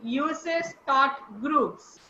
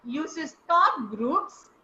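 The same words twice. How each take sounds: First: "Uses thought groups" said very slowly, each word drawn out; stress on thought groups. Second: "Uses thought groups" very slow, weight landing on "groups"; stress on groups. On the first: Teacher to online class, slowly sounding out the thought group. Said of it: "you will stress on". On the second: Teacher to online class, demonstrating where to stress the thought group. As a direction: drag "Uses thought groups" slowly and lean on "groups". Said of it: "you will stress on groups". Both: Shown as a demonstration.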